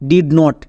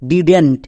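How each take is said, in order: First: It is said as two separate full words. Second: It is squeezed into one contracted word. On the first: The speaker calls it wrong. "নট" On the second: The speaker calls it right. "একে আমরা একসঙ্গে উচ্চারণ করবো ডিডেন্ট"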